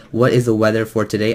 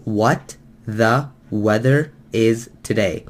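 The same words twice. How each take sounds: First: Said in the usual way. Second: Slow, light imitation of a thick Chinese accent, broken sentence "What the weather is today"; imitating Chinese accent. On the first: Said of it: "if someone was to write". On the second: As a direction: mimic the Chinese speaker's slow, careful broken English. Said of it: "on top of his thick accent".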